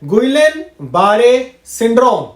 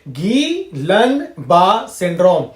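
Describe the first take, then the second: First: The name is sounded out as spelled, 'gwee-len baa-ray'. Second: The name is said French-style, 'ghee-lan bah'. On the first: The speaker calls it wrong. "लेकिन इस तरीके से हमें pronounce नहीं करना होता है" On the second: The speaker calls it right. "Pronunciation कुछ इस तरीके से होता है"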